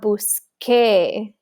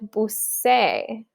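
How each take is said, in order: First: The middle consonant is a k sound. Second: The middle consonant is an s sound. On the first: The speaker calls it right. "so we need that Q-U" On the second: The speaker calls it wrong. "which sounds weird"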